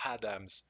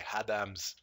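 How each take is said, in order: First: The name starts with H and ends in S. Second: The name starts with H and ends in S.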